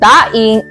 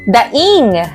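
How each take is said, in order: First: The stress falls on the first syllable. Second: The stress falls on the last syllable. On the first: A split, salted and dried fish. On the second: An expression of pain or sorrow.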